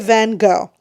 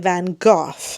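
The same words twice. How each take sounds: First: The name is pronounced the Canadian way. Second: The name is pronounced the British way. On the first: This is how the speaker was taught. "Canadians say Van Gogh" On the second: This is how British people say it. "The British say Van Gogh"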